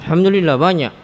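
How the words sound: It is said in a sulky, sour tone.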